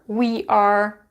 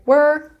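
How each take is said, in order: First: Both words are said fully and separately. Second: The words are run together into one syllable. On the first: "we are sounds like we're" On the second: "sounds like we're"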